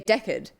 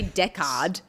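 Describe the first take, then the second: First: The vowels are relaxed and naturally reduced. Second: The vowels are exaggerated and carefully enunciated. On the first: The speaker calls it right. "you say Deckard" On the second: The speaker calls it wrong. "you over enunciate to make it easier to understand the vowels, but you don't say Deckard"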